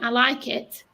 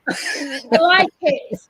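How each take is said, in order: First: The words are said quickly and evenly. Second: The words are drawn out with a roll. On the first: "instead of going" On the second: "I sort of have a bit of a roll on it"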